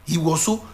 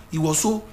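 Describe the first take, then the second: No difference in how they are said.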